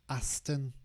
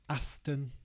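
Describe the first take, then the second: Both takes have the same delivery.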